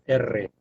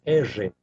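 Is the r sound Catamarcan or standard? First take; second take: standard; Catamarcan. First: The r is the standard trilled r. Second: The r is the Catamarcan local r.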